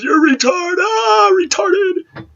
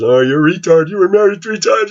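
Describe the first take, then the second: First: Very high, shouted jeering in a put-on voice; shrieking mock taunt. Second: High, nasal-free sneering taunt in a put-on voice; mocking commenter voice. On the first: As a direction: screech the insult like a mocking troll. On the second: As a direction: mimic the online trolls jeering at him, pitched up. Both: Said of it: "I get laughed at".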